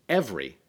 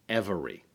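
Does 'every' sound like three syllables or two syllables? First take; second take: two; three. First: It is said with two syllables, middle vowel dropped. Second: It is said with all three syllables pronounced. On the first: "he elides twice" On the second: "instead of"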